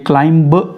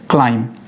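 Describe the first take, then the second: First: The final b sound is pronounced. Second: The final b sound is silent. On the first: The speaker calls it wrong. "ये क्लाइंब नहीं है, ब नहीं पढ़ना है इसमें" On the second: The speaker calls it right. "ब नहीं पढ़ना है इसमें"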